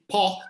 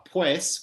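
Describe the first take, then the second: First: The word is cut down to a short syllable. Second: The word is said fully with its final s. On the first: This is how Chileans say it. "which in Chilean is famously po" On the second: This is the standard form. "there's also the word uh, pues"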